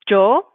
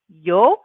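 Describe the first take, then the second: First: It begins with a j sound. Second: It begins with a y sound. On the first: "like a, a j sound" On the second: "like a y sound"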